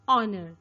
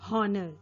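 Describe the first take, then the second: First: The word begins with no h sound. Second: The word begins with an h sound. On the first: The speaker calls it right. "H sound is silent over there. It's honor" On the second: The speaker calls it wrong. "not honor"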